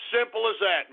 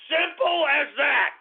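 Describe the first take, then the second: First: Said in the usual way. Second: Shouted. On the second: Real, not acted. Host hammering his advice to listeners, shouted. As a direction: slam the point home with a yell. Yelled punchline after insult.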